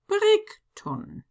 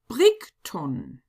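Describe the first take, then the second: First: The name is read with German letter sounds. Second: The name is read with German letter sounds.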